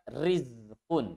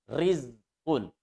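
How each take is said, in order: First: The r is pronounced light and thin. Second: The same.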